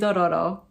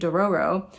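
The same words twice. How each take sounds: First: It is said with a Japanese-style pronunciation. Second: It is said with an American English pronunciation. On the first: The speaker calls it right. "So I'm gonna say Dororo" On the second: The speaker calls it wrong. "In unaccented American English, this would be Dororo"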